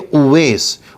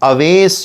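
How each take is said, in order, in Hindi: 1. नाम 'u' की आवाज़ से शुरू होता है। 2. नाम 'a' की आवाज़ से शुरू होता है। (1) "ये सही है उवैस" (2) "आजकल बहुत सारे लोग उसको गलत बोलते हैं"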